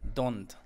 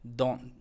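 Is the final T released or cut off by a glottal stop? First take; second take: released; glottal stop. First: The final T is clearly released. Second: The final T is cut off by a glottal stop. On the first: This is how a non-native speaker would say it. "ellos no pronuncian la T así como que don't" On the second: This is how native speakers say it. "ellos dicen don't, don't, como que aquí aprietan"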